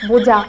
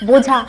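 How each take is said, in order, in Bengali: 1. মাঝের ব্যঞ্জনটি দুর্বলভাবে, আধাআধি উচ্চারিত হয়। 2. মাঝের ব্যঞ্জনটি দুর্বলভাবে, আধাআধি উচ্চারিত হয়।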